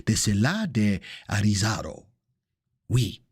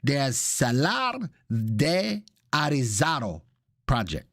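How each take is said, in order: First: Playful put-on French accent; lower-pitched, hammed-up French accent. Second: Slow, showy Spanish pronunciation; hammed-up Spanish accent; put-on Spanish accent. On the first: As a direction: slip into a mock French accent. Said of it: "I could go into the French accent". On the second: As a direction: draw it out in a playful Spanish accent. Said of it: "I go from Italian to Espanol". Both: Shown as a demonstration.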